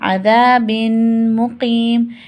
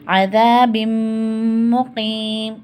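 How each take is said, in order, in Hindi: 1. m से पहले n अलग रहता है। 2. n मिलकर ग़ुन्ना वाला, दोहरा m बन जाता है। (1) "अब हम इसे नॉर्मली कैसे पढ़ते हैं" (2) "जो एक ज़ेर बचेगा ये मीम से मिल जाएगा"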